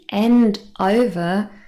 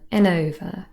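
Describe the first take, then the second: First: Each word is said fully and separately. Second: The words run together with a weak 'and'.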